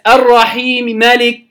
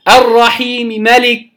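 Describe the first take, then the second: The two takes are said the same way.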